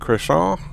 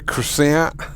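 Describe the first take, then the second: First: The word is pronounced with French sounds. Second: The word is pronounced with English sounds. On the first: The speaker calls it right. "pay a proper homage to the language" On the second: The speaker calls it wrong. "English slash Americans do too... why do we have to say"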